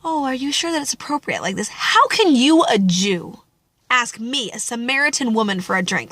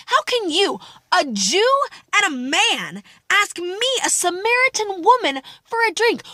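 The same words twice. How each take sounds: First: Prim, polite question, not angry; mock polite propriety. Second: High, scornful challenge to the man asking; indignant sass. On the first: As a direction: ask it like a careful, proper lady. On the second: Acted. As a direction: throw the question back at him, offended. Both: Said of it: "she's not like".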